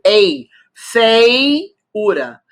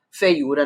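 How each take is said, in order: First: "Ei", then "feiura" very slow and loud, fei, u-ra; syllable by syllable. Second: Said in the usual way. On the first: Shown as a demonstration. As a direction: isolate the diphthong ei in "feiura", stretched out. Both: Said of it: "é o ditongo".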